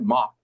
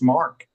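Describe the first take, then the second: First: The name is said with a French open vowel. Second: The name is said with an English r-colored vowel. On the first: The speaker calls it right. "It's French" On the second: The speaker calls it wrong. "my name is not pronounced Mark"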